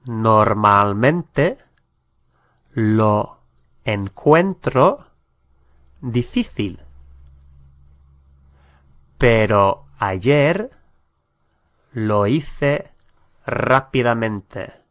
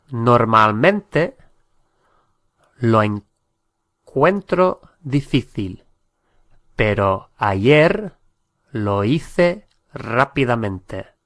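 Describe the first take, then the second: First: Slow, word by word, with long gaps; slow, broken-up model sentence. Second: Said in the usual way. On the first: Shown as a demonstration. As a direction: say it slowly, one chunk at a time so learners can follow. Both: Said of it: "teacher models the sentence twice".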